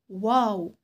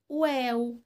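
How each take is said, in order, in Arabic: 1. يُنطق اسم الحرف بصوت ثقيل ومفخّم. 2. يُنطق اسم الحرف بصوت خفيف ومرقّق. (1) "لا نقول واو" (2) "حرف مرقق ... ولكن نقول واو"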